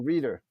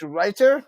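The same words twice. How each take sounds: First: "Reader" said with a long "ee", REE-der; alternative pronunciation. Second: "Reiter" said with an "eye" vowel, RY-ter; alternative pronunciation. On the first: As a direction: try the name "Reader" with an "ee" vowel. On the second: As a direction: sound "Reiter" like "rider". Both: Shown as a demonstration. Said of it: "Felix Reiter or Reader?".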